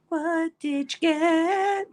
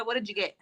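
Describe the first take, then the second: First: Very slow, high, stretched-out words; singsong-slow, high mock demand; drawn-out nosy question. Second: Said in the usual way. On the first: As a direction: playfully drag every word out, pitched high. Same question repeated, stretched out playfully.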